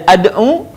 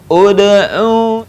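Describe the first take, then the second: First: The word begins with an a vowel. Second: The word begins with an u vowel. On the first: The speaker calls it wrong. "dibaca tidak ad'u" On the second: The speaker calls it right. "tapi ud'u"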